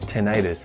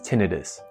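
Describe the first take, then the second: First: The stress is on the second syllable. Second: The stress is on the first syllable. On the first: It suggests inflammation of the ear. The speaker calls it wrong. "The other way to pronounce the ringing in your ears is tinnitus. That uses the section itis" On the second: It is the medical usage. The speaker calls it right. "The correct way to pronounce the word is tinnitus"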